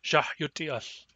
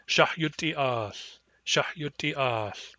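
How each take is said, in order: First: "Shahyuti as" with every vowel kept short; all vowels short. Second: "Shahyuti as" with short, short, short, then a long final vowel; slow central dialect model. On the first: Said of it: "all the vowels are short". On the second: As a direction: hold the last vowel of "as" long. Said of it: "In central, this is short, short, short, long". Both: Shown as a demonstration.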